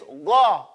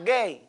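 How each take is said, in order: First: The vowel stays an open ah sound. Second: The vowel shifts toward an ay sound. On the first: The speaker calls it right. "It's gha" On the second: The speaker calls it wrong.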